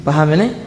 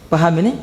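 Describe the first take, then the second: Both takes have the same delivery.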